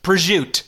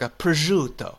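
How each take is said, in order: First: It is said in a New Jersey style pronunciation. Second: It is said with a more Italian-sounding pronunciation. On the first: "you go to Jersey and it's just" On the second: "it seems like it's closer to"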